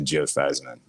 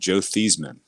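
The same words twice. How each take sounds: First: The surname rhymes with Heisman. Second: The surname does not rhyme with Heisman. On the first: The name was changed to promote a Heisman campaign. "we're gonna change the pronunciation to" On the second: This is the name's original pronunciation. "there was a quarterback back in the day named"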